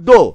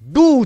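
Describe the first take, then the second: First: The vowel sounds like oh. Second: The vowel sounds like oo. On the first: It is read as a letter pattern. "ওখানে আমি উচ্চারণ করছি কিন্তু ডো" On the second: It is read as the word meaning to do. "ডিও মানে ডু উচ্চারণ হবে"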